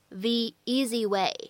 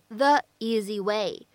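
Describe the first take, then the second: First: The word 'the' is said with a long 'ee' vowel. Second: The word 'the' is said with a short 'uh' vowel. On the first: The speaker calls it right. "而应该读成the easy way" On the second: The speaker calls it wrong. "不能读成the easy way"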